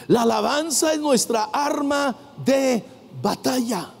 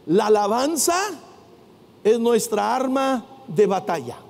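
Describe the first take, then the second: First: "La alabanza es nuestra arma de batalla" in measured, separated phrases; emphatic repetition. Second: Said in the usual way. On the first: Real, not acted. Preacher repeats the key line to the congregation, emphatic. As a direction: drive home "arma de batalla", pausing before "batalla".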